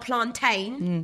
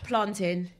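First: The last syllable is full, rhyming with 'rain'. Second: The last syllable is weak, like in 'mountain'. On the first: The speaker calls it wrong. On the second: The speaker calls it right.

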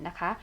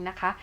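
Both takes have the same delivery.

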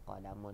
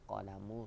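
First: The word ends with an added n sound. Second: The word ends on a vowel, without n. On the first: The speaker calls it wrong. "bukan qalamun eh" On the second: The speaker calls it right. "Qalamu rasasin"

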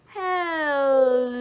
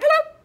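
First: It is said very slowly. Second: It is said very quickly.

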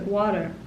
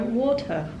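First: The t sound is softened or dropped. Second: The t sound is crisply pronounced. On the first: "When Americans pronounce water, they pronounce it water" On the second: "And we go"

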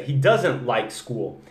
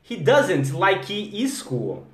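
First: The k sound runs straight into school. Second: An extra vowel is added after the k sound. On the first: The speaker calls it right. "Olha a diferença" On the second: The speaker calls it wrong. "Só de você não falar like you"

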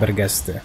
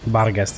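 First: The first vowel is an 'e' sound. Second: The first vowel is an 'a' sound. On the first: The speaker calls it wrong. "dlaczego ja mówię na nie Bergesty. To A ciągle zjadam" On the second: The speaker calls it right. "chyba Bargest"

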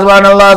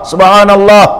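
First: It is said quickly and in a rush. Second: It is said slowly and with care. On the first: The praise is rushed without patience. The speaker calls it wrong. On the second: The praise is said with patience and attention. The speaker calls it right. "Sabar menyebut subhanallah"

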